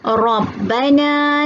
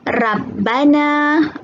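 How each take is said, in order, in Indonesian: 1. Bunyi r dibaca tebal. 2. Bunyi r dibaca tipis. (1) "ra tafkhim yang dibaca dengan tebal" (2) "Kita tak boleh baca Rabbana. dengar pun macam tak betul kan?"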